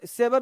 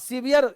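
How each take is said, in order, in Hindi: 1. यह 'sever' की तरह बोला जाता है, छोटे स्वरों के साथ। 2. यह 'seveer' की तरह बोला जाता है, लंबे स्वर के साथ। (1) "सेवर नहीं" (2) "सीवियर पढ़ेंगे इसको"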